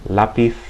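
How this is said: The z sounds like th. This is how it is said in Spain. "as if I were in Spain"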